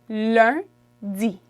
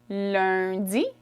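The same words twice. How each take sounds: First: It is said slowly. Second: It is said quickly.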